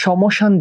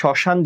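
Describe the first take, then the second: First: An m sound follows the first consonant. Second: No m sound follows the first consonant. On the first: The speaker calls it wrong. "সমসান যেহেতু বলি না" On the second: The speaker calls it right. "শ্মশান যেহেতু বলি, মফলাটা উচ্চারণ হচ্ছে না"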